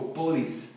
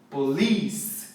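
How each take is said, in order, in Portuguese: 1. A sílaba tônica é a primeira. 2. A sílaba tônica é a segunda. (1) "a gente tende a falar polis" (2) "A sílaba tônica é li"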